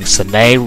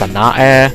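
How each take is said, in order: First: The name is said with two syllables. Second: The name is said with three syllables. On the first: The speaker calls it wrong. "I've been pronouncing Sanae wrong" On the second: The speaker calls it right. "it's especially pronounced Sanae, ... there's just one too many syllables"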